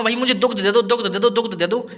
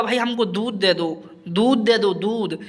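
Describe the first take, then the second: First: Lightly voiced villager begging, repeating "दुग्ध दे दो"; a hint of a pleading villager using the bookish word "दुग्ध"; mock plea for "दुग्ध"; mock villager asking for milk. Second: Lightly voiced villager pleading with the everyday word "दूध"; a hint of a villager begging, trailing off on "दूध"; casual mock plea for "दूध"; mock villager asking for milk. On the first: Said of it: "बोलेगा ऐसा कोई?". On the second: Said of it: "ये बोलेगा".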